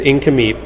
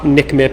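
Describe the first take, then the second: First: The name begins with an 'in' sound. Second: The name begins with a 'nik' sound. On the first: The speaker calls it right. "It's Inkameep" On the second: The speaker calls it wrong. "It's not Nikmip"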